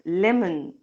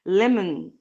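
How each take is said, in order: The two takes are said the same way.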